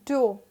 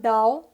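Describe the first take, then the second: First: The vowel sounds like 'oh'. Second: The vowel sounds like 'ow'. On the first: The speaker calls it right. "This is dough" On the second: The speaker calls it wrong. "This is not dough. ... इसको डाव नहीं कहना है"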